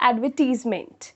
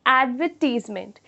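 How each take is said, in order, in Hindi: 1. यह भारतीय लहजे में बोला गया है। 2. यह भारतीय लहजे में बोला गया है।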